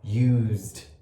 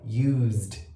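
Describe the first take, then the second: Both takes have the same delivery.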